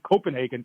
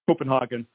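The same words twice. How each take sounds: First: The name is pronounced in an English style. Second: The name is pronounced in a German style. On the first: The speaker calls it right. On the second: The speaker calls it wrong.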